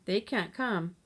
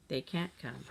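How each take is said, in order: First: Said in the usual way. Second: Lower, softer, heavy words; grimly. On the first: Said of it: "she stated". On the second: A narrator's reading. Jill grimly repeating the news to her siblings. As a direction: let the bad news sink in. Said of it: "she repeated grimly".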